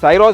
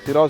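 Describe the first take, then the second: First: The first syllable has an 'eye' vowel. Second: The first syllable has an 'ee' vowel. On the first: "साइरोस बोल दो" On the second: "सिरोस बोल दो"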